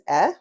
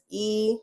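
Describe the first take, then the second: First: The vowel is the short sound 'eh'. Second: The vowel is the long sound 'ee'.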